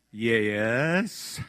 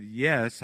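First: Said in the usual way. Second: Yes stretched out long in a Mississippi drawl; Southern drawled yes. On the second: Retold or imitated. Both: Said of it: "Yes is not a seven-syllable word".

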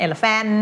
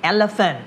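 First: "elephant" with a stretched, full -faaan; Thai-style full last syllable on "elephant"; wrong -fan ending. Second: "elephant" ending in a weak -funt; schwa ending. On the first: Retold or imitated. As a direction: mimic the error with an open A ending "elephant". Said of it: "ไม่ elephant". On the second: Shown as a demonstration. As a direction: model "elephant" with a reduced last vowel. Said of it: "มันจะไม่อ่าน and".

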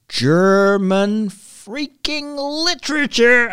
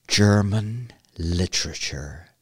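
First: High, drawn-out exasperation; exasperated venting. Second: Low, slow, weighted delivery; dread-laden announcement. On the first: Podcaster venting about German literature from school, exasperated. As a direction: stretch every word out in high-pitched loathing. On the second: Podcaster naming the school subject they hated, ominous. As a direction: let each word sink, slow and low. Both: Real, not acted.

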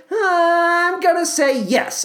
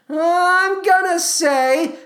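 First: "I'm gonna say yes" stretched long and higher; slow, higher drawn-out verdict. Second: Drawn out. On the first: Host drawing out his verdict on the Tony, slow and high. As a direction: build suspense, then land it. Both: Shown as a demonstration.

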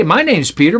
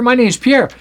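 First: Said in the usual way. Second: Playful introduction with "Pierre" in place of Peter; French form of the name. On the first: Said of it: "Peter is the English word". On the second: Shown as a demonstration. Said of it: "English word for the word Pierre".

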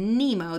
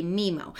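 First: Said in the usual way. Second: "Mimo", Nemo with m in both syllables; assimilation. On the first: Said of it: "they say Mimo". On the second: Shown as a demonstration. Showing how a child says Nemo, "Mimo". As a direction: swap the N for M: "Mimo". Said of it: "use the same consonant twice".

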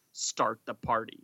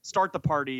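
First: Very dramatic. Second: Said in the usual way. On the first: Shown as a demonstration. Parent at a kid's party, mock-dramatic. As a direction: deliver it as a dramatic catchphrase. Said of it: "make a very dramatic".

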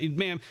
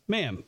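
First: Mild polite address with a lift at the end. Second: Said in the usual way. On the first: Retold or imitated. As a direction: say Ma'am courteously, slightly rising. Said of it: "but politely, just like". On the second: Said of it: "but politely".

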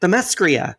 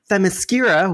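First: "Themyscira" misread as the-MESS-kree-a; mistaken pronunciation. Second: Said in the usual way. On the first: Shown as a demonstration. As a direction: slip the R forward in "Themyscira": the-mes-KREE-a style. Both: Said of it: "I thought Themyscira was pronounced".

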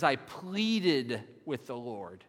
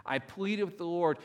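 First: Slow, drawn-out "pleaded" with a falling close; stress on pleaded. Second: Said in the usual way. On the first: Shown as a demonstration. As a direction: lean hard on "pleaded", slowly. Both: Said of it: "I really like this translation".

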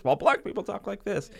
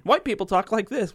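First: High-pitched mock stand-up delivery at ordinary volume; lightly put-on comedian closing the contrast, pitched well up; stand-up comic punchline. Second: High-pitched, mock stand-up delivery, a bit louder; lightly hammed-up comedian setting up a contrast, pitched well up; stand-up comic bit. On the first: Co-host finishes parody of comedy routine, mock stand-up voice. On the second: Co-host likens racist's argument to comedy routine, mock stand-up voice. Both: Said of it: "like a stand-up comedy routine".

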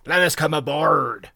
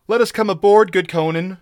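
First: Slow, raised rogue's plea with a slight croak; lightly voiced croaking pirate. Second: High, loud begging whine; pleading pirate, pitched up and loud; whining plea. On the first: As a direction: plead slowly as a worn-out rogue. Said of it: "croaked a hairy rogue". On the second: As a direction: beg to be let in. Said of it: "whined a red-sashed Cimmerian". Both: A narrator's reading.

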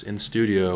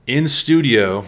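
First: Lightly ironic "in studio", said almost plainly; softer air quotes. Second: Loud, ironic "in studio", punched high; air quotes. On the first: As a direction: repeat "in studio" with a light wink. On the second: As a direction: say "in studio" as if it is not a real studio. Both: Acted. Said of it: "well, I'm doing air quotes".

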